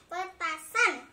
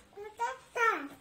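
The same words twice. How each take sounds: First: Petasan loud, every syllable drawn out; over enunciating. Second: Said in the usual way. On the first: Shown as a demonstration. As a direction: sound out pe-ta-san clearly.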